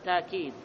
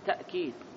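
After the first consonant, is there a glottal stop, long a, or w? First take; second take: long a; glottal stop. First: A long a vowel follows the first consonant. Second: A glottal stop follows the first consonant. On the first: "ويقرأ بالألف تأكيد" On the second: "ويقرأ بالهمس تأكيد"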